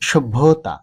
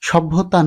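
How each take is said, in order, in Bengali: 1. প্রথম স্বরধ্বনিটি o-এর মতো শোনায়। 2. প্রথম স্বরধ্বনিটি a-এর মতো শোনায়। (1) "শুদ্ধ উচ্চারণ হবে সভ্যতা" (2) "সভ্যতা নয়"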